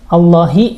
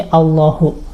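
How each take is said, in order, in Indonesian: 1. Kata ini berakhir dengan vokal i. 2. Kata ini berakhir dengan vokal u. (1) "Di sini Allahi" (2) "Yang bawah salah harokatnya"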